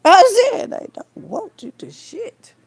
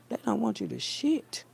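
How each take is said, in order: First: Loud, high, slow, laughing through the words; laughing repeat. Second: Said in the usual way. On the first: Real, not acted. Repeating her joke to viewers, laughing loudly. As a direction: crack yourself up repeating it.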